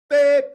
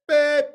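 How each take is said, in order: No difference in how they are said.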